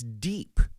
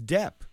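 First: The vowel is a long ee sound. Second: The vowel is a short e sound. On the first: The speaker calls it right. "it's deep" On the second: The speaker calls it wrong. "I always thought it was dep"

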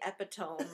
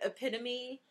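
First: It has three syllables and ends in ohm. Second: It has four syllables and ends in ee. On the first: The speaker calls it wrong. "Most people say epitome" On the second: The speaker calls it right. "I can't believe you said that right"

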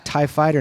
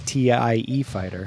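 First: TIE is said as a single word. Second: TIE is spelled out letter by letter. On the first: The speaker calls it right. "it's also a TIE fighter" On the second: The speaker calls it wrong. "not a T-I-E fighter"

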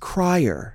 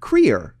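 First: The name does not sound like career. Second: The name sounds like the word career. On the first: The speaker calls it wrong. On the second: The speaker calls it right.

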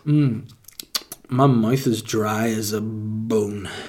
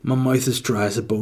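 First: The line is said in a creepy way. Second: The line is said in a normal way. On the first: The speaker calls it wrong. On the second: The speaker calls it right.

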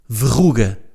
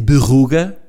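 First: The word starts with a v sound. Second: The word starts with a b sound, Viseu-style.

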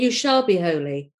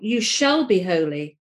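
First: It sounds like a calm prediction. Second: It sounds like a firm command.

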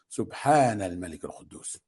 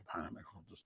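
First: It is said with a raised, loud voice. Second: It is said at normal, softer volume.

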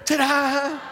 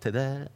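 First: It is said loudly with lots of energy. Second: It is said flatly with little energy.

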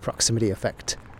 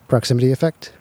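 First: The voice has a natural, even low end. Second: The voice has extra boomy low end. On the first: "No proximity effect"

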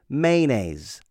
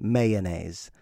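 First: The word is said with fewer syllables. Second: The word is said with an extra syllable. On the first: "I say mayonnaise" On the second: "They add that syllable"

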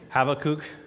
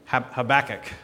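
First: The name is pronounced the Hebrew way. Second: The name is pronounced the familiar English way. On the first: "is how the Hebrews say it" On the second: "like I called it as a child"

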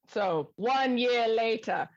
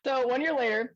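First: It is said in a put-on French accent. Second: It is said in the speaker's ordinary accent.

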